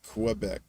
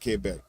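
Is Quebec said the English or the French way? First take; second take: English; French. First: It is said with an English pronunciation. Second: It is said with a French pronunciation. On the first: This is how the speaker has always said it. "but I always called it Quebec" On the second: This is how French speakers say it. "They they pronounce it Quebec"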